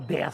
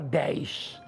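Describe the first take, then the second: First: It is said with a Minas Gerais accent. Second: It is said with a Rio de Janeiro accent. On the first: "Lá em Minas a gente, a gente não fala... A gente fala" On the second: "O carioca fala"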